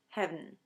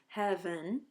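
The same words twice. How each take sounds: First: It is said as one syllable. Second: It is said as two syllables. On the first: "heaven was often pronounced as heaven" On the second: "two syllables"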